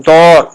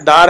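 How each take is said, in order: First: دور with a rounded "aw", punched louder; Persian long vowel. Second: Said in the usual way. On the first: Shown as a demonstration. Teacher contrasting with Urdu usage, Persian long vowel. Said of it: "لیکن یہاں بولا جائے گا". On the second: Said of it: "ہمارے ہاں بھی دار گھر بولا جاتا".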